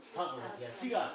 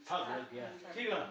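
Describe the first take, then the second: No difference in how they are said.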